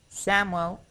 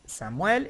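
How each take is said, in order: First: It is pronounced with English sounds. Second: It is pronounced with Spanish sounds. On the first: "Samuel in English" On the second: "Samuel is in Spanish"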